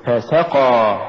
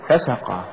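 First: فسقى with ف set apart and سقى pushed; push after fa. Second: فسقى run together as one root word; wrong stress. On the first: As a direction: lean on the س right after ف in فسقى. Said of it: "قل". (نطق فسقى بدفع السين بعد الفاء) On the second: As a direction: say فسقى quickly, weight on the ف. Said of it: "ولا تقل". (نطق فسقى ككلمة واحدة من الفسق) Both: Shown as a demonstration.

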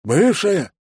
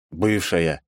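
First: High-pitched, surprised echo; echoed question. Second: Said in the usual way. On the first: A narrator's reading. Secretary echoing his boss's word, high and incredulous. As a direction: parrot the word back high in disbelief. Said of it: "эхом переспросил Бен".

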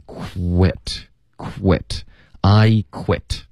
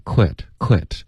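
First: "quit" drawn out with strongly pursed lips and a clear w; slowly pucker into "quit"; "quit" with a long breathy kw, then a heavy w; exaggerated rounded w. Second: "quit" with a weak, quickly slid w; "quit" with barely rounded lips; Chinese-style kw. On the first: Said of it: "要用一个比较夸张的一个嘟嘴的这个发音". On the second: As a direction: slide straight through the w in "quit", like Chinese 扩. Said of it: "如果你用一个中式的". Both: Shown as a demonstration.

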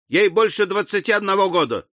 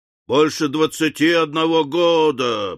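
First: Said in the usual way. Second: Mocking, disdainful repetition; scornful. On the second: A narrator's reading. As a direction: throw the words back with scorn. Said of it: "презрительно воскликнул Уордль".

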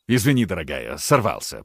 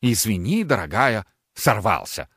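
First: Low, subdued apology; sheepish apology. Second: Sing-song mocking echo; mocking mimicry. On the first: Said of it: "произнёс Аристарх". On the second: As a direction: parrot him back with scorn. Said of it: "передразнила его Ангелина". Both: A narrator's reading.

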